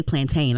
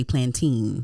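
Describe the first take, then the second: First: Plantain as "plan-tane", ending like rain; the wrong way. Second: Plantain as "plan-tin", short last vowel; the right way. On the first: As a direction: say plantain with a long "ay" in the last syllable, plan-TANE. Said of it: "I don't say plantain". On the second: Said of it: "I say plantain". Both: Shown as a demonstration.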